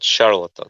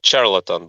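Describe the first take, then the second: First: It begins with an sh sound, as in she. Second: It begins with a ch sound, as in chip. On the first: The speaker calls it right. "but charlatan" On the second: The speaker calls it wrong. "Not charlatan"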